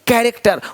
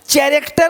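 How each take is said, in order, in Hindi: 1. यह शब्द k ध्वनि से शुरू होता है। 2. यह शब्द ch ध्वनि से शुरू होता है। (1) "का का का यहाँ भी सी एच भी का है" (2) "चैरेक्टर नहीं"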